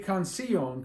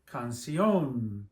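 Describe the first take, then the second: First: The stress falls on the i sound. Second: The stress falls on the final o sound. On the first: The speaker calls it wrong. "What happens if you put it on the I? It'd be canción" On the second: The speaker calls it right. "we say canción"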